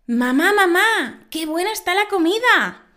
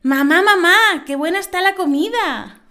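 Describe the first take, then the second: First: Put-on high, loud little girl calling her mother. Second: Put-on high, even louder child calling again; the girl repeats it, missing the joke; little girl voice. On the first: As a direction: play an eager child praising dinner. Child voice in a joke.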